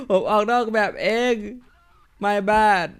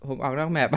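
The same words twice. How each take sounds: First: ผมออกนอกแมปเอง said higher and louder through a laugh; laughing realisation. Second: Said in the usual way. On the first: Real, not acted. Gamer admits to viewers he walked off the map, laughing.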